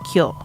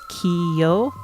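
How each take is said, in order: First: It is said as one blended syllable. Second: It is said as two separate syllables. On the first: The speaker calls it right. "it's kyo" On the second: The speaker calls it wrong. "instead of pronouncing as kiyo"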